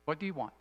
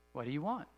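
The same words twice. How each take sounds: First: Soft repeat, "do" leaned on and falling; stress on do. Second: Soft question, "want" rising at the end; stress on want. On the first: Pastor repeats the question softly, pressing "do". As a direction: press "do" and let it fall. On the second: Pastor quietly asks the congregation, "want" rising. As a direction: ask it quietly and lift "want". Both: Shown as a demonstration. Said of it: "So the first question is".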